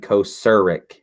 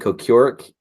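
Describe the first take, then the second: First: The middle syllable sounds like 'sir'. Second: The middle syllable does not sound like 'sir'. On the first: The speaker calls it right. "it's actually Kocurek. It's like a sir" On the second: The speaker calls it wrong. "I was saying Kocurek"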